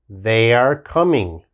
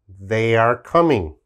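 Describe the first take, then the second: The two takes are said the same way.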